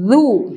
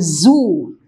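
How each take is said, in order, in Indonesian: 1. Konsonannya dibuat dengan lidah di antara gigi. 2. Konsonannya adalah bunyi z biasa. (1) "itu yang benar adalah zu" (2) "Zu itu biasanya dibaca dengan zu ya"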